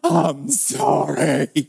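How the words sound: It is said in an overdone, dramatic way.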